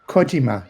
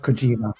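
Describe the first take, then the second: First: The stress is on the first syllable. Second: The stress is on the second syllable. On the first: The speaker calls it right. "you would stress the first syllable" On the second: The speaker calls it wrong. "not the second one"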